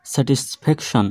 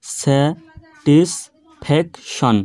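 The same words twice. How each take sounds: First: Said in the usual way. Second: satisfaction slow as স্যা, টিস, pack, শন, a gap after each; split into four syllables. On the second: Shown as a demonstration. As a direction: say satisfaction in four separate chunks. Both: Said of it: "চারবারে উচ্চারণ করা সম্ভব".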